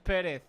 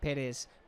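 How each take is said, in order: First: The name ends with a th sound. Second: The name ends with a plain s sound. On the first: This is how others with the name say it. "but everyone else is Perez" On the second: This is how the player from the Canary Islands says it. "There is no T H sound at the end of Ayose's last name"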